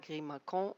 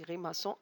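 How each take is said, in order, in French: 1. La consonne du milieu est un son K dur. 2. La consonne du milieu est un son S doux. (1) "On ne dit pas" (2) "on dit grimaçon avec la cédille"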